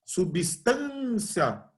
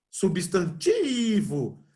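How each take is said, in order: First: "Substância" with TAN held very long; slow "Substância", swelling on a long TAN; stretched stress on TAN. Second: "Substantivo" with TI held very long; slow "Substantivo", lingering on a long TI; stretched stress on TI. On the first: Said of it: "a sílaba tan?". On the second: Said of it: "a sílaba tônica é o ti?". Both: Shown as a demonstration.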